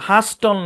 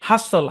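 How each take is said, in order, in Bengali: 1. t ধ্বনিটি স্পষ্টভাবে উচ্চারিত হয়। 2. t ধ্বনিটি বাদ পড়ে। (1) "হাস্টল না"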